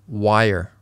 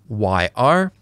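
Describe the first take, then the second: First: The two words blend into one, like wire. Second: The two words are said separately.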